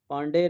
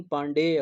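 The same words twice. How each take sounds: First: पांडे ending on a bare 'de'; wrong short ending. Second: पांडेय with a stretched 'dey' and final 'ya'; correct full ending. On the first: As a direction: say पांडे with no 'ya' after it. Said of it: "पांडे नहीं". (पांडे, अंत में 'य' के बिना) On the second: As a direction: draw out the end of पांडेय as paan-dey-ya. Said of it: "पांडेय होता है". (पांडेय, 'डेय' खींचकर) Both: Shown as a demonstration.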